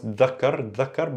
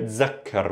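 First: The word begins with a soft th sound. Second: The word begins with a z sound. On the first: This keeps the original standard sound. "you could pronounce dhakkar" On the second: This is a dialect form. "with a z sound"

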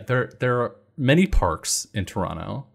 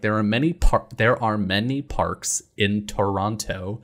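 First: The consonants are said casually, with natural reduction. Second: Every consonant is pronounced crisply and precisely.

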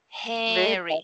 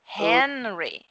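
First: The vowel is nasalized without a clear N. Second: The tongue touches the palate for a clear N. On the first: The speaker calls it wrong. "a gente anasala as vogais, falando re, né? Eu tava falando re" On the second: The speaker calls it right. "tem que ser hen. A ponta da língua tem que encostar no céu da boca"

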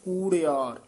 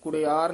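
First: The first vowel is long. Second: The first vowel is short. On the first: The speaker calls it right. "ਬਲੈਂਕਟ ਥੋੜੇ ਦੀਰਘ ਲਾ ਕੇ ਉਚਾਰਨ ਕਰਨਾ ਹੈ" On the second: The speaker calls it wrong. "ਕੁੜਿਆਰ ਨਹੀਂ ਕਹਿਣਾ"

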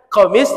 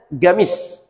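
First: The word begins with a deep q sound. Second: The word begins with a g sound. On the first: "Orang Saudi bacanya ghain. Makanya qamis" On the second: "bacanya gamis"

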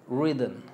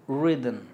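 Both takes have the same delivery.

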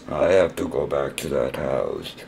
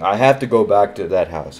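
First: It is said in a robotic voice. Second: It is said in a normal voice.

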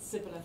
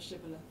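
First: The word begins with a plain s sound. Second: The word begins with an sh sound. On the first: The speaker belongs to one tribe. "one tribe pronounced it sibboleth" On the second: The speaker belongs to the other tribe. "the other shibboleth"

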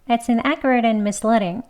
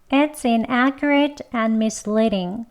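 First: The sentence is spoken quickly with linked words. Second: The sentence is spoken slowly and carefully. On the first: "두 번 빨리 보겠습니다" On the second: "천천히 두 번 해보겠습니다"

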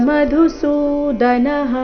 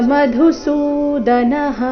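Both takes have the same delivery.

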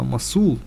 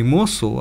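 First: The stress is on the second syllable. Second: The stress is on the first syllable. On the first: The speaker calls it right. "а Масул. ... неправильно ставлю ударение" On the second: The speaker calls it wrong. "не Мосул"

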